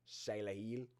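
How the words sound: It is said in a put-on Australian accent.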